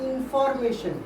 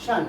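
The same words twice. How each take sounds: First: Said in the usual way. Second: "information" as ইন, ফর, মে, শন; long pauses between the syllables of "information"; split into four syllables. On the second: Shown as a demonstration. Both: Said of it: "একটা, দুটো, তিনটে, চারটে".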